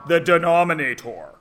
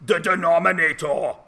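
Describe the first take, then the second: First: Said in the usual way. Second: Hammed-up Austrian action-hero accent, heavy Austrian vowels; mock Austrian bodybuilder accent, a bad one; bad Arnold Schwarzenegger accent. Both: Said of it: "in a bad Arnold Schwarzenegger accent".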